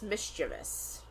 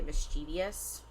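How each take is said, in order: First: The word is pronounced as it is spelled. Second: The word is pronounced unlike its spelling. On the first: The speaker calls it right. "It's mischievous" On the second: The speaker calls it wrong. "I always say mischievous"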